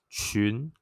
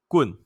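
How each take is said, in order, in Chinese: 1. 从低升到高。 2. 先低后降。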